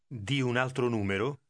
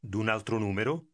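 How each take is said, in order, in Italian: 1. 'Di' e 'un' si dicono come due parole separate. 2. 'Di' e 'un' si fondono in una sillaba, d'un. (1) "Did you hear how" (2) "combines to form"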